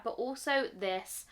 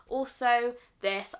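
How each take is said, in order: First: Said in the usual way. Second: Also this said louder and slower, leaning on also; emphatic repeat. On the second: Real, not acted. Reviewer insisting to viewers on another favourite, emphatic. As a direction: repeat also this, hitting also harder.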